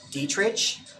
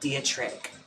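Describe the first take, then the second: First: The name is said the original way. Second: The name is said the common way. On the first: This is how the name really goes. The speaker calls it right. "It's like Dietrich ... I guess is the actual pronunciation of it" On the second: This is how most people say it. The speaker calls it wrong. "I was mispronouncing Marlena Dietrich's name this whole time. Like it's not Dietrich"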